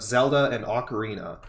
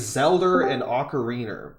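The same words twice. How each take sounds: First: Zelda and Ocarina end with an 'ah' sound. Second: Zelda and Ocarina end with an 'er' sound. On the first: "instead of" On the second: "I say"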